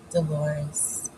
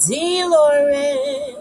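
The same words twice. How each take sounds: First: Said in the usual way. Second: Dolores with a rolled Spanish lilt, higher and louder; Spanish accent. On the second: Shown as a demonstration. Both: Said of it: "Put a little accent on it".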